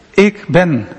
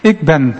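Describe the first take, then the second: First: Said in the usual way. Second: Zelfbewust. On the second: Retold or imitated. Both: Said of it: "Heel zelfbewust".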